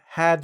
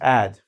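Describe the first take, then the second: First: The word begins with a clear h sound. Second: The word begins with no h sound.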